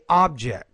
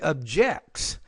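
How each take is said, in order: First: The stress is on the first syllable. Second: The stress is on the second syllable. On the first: The word is used as a noun. "because it's a noun, I say object" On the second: The word is used as a verb. "if it were a verb, I'd say objects"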